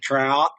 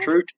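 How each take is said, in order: First: It is said in an exaggerated American accent. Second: It is said in an exaggerated Canadian accent.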